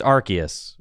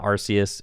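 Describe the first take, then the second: First: Arceus said "AR-kee-us" with hard C; a K sound inside Arceus; official pronunciation. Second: An S sound inside Arceus; mistaken pronunciation. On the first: Streamer correcting the name, Arceus pronounced with hard C. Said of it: "It's Arceus". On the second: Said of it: "It's not Arceus". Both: Shown as a demonstration.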